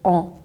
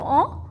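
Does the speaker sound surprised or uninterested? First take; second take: uninterested; surprised. First: It sounds flat and uninterested, like casual acknowledgement. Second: It sounds surprised, with a sharp questioning tone. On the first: The speaker is listening without really caring. "듣고 있는데 솔직히 그렇게까지는 신경 안 쓰니까" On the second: The speaker is startled by what was said. "약간 놀랄 때도 말하죠"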